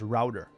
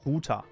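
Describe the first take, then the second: First: It is said with an English pronunciation. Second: It is said with a German pronunciation. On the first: "in English, I thought that it was pronounced router" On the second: "In German, I would pronounce it Router"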